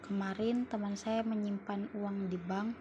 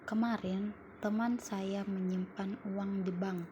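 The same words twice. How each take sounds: First: The stress falls on the word saya. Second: The stress falls on the word kemarin. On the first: "yang ketiga mendapatkan tenang, tekanan pada saya" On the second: "Pada kalimat pertama, mendapatkan tekanan pada kemarin"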